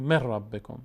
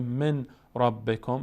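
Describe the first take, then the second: First: مر ربکم with the n turned into a doubled r; merged idgham. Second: من ربکم as two words with the n sounded; unmerged nun. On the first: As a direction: lean on the long r joining مر ربکم. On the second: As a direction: clear n in من, then ربکم. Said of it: "به جای که بگیم من ربکم". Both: Shown as a demonstration.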